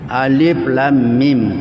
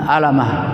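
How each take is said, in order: First: Each letter is said separately by its name. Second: The letters are blended into one short word. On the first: The speaker calls it right. "cara membacanya sesuai dengan namanya" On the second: The speaker calls it wrong. "kalau orang tidak tahu, mungkin bisa dibaca alamah"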